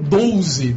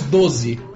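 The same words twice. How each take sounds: First: A Rio accent with an extra sound inside. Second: A São Paulo accent with no extra vowel. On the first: "No Rio de Janeiro eles falam 12. Tem um L no meio" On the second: "nós falamos 12. D-O-Z-E"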